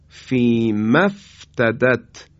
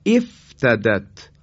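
First: فی مفتدت said slowly as one run, with no hamza heard; joined reading. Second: افتدت said alone, opening with a clear e sound; start with kasra. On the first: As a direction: slowly join فی مفتدت together. (فی مفتدت را آهسته و پیوسته بخوانید) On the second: (افتدت را با کسره در ابتدا بخوانید) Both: Shown as a demonstration.

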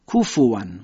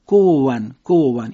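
First: کوفوان with an airy f; blown f. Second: کووان with a w in place of the f. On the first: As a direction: puff air on the f. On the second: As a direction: demonstrate the wrong w-like f. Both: Shown as a demonstration.

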